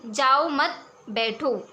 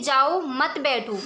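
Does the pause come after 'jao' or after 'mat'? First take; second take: after mat; after jao. First: The pause comes after 'mat'. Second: The pause comes after 'jao'.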